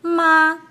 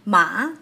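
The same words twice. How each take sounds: First: "ma" high, loud and level; first-tone "ma" with no rise or fall. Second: "Ma" rising from middle to high; second-tone "Ma", climbing in pitch. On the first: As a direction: hold "ma" steady at a high pitch. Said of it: "It's different from ma". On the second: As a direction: swing "Ma" upward to end high. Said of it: "starts at mid-range and ends high". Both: Shown as a demonstration.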